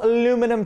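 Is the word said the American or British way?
American. It is said the plain American way, without the extra sound.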